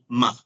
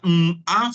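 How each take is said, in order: First: The m and a sounds blend into one syllable. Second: The m and a sounds are said separately. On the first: The speaker calls it right. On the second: The speaker calls it wrong. "no sería"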